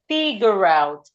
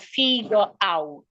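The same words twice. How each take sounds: First: The two words are linked into one. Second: The two words are said separately. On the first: The speaker calls it right. "we should link the R and the vowel together" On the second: The speaker calls it wrong. "instead of"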